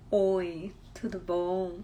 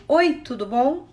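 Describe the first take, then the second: First: Much softer, lower "Oi, tudo bom?"; soft low greeting. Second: Said in the usual way. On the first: Shown as a demonstration. Teacher demonstrating one tone of voice to students. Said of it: "se você falar comigo assim". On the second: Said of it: "se você falar pra mim".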